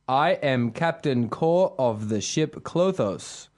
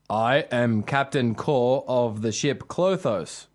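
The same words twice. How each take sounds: First: The voice is higher, not deep. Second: The voice is pitched deeper.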